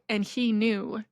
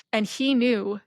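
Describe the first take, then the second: No difference in how they are said.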